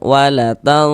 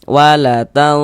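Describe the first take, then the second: No difference in how they are said.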